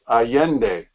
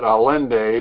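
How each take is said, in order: First: The name is said with Spanish-style sounds. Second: The name is said with English-style sounds. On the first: This is how the name is really said. The speaker calls it right. "but it's" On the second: This is how people at home commonly say it. The speaker calls it wrong. "We pronounce it"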